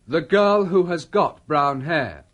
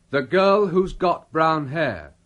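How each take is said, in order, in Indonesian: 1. Who has diucapkan sebagai dua kata penuh. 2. Who has disingkat menjadi satu suku kata. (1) "Artinya sama dengan" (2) "dalam percakapan sehari-hari, ungkapan tadi diucapkan"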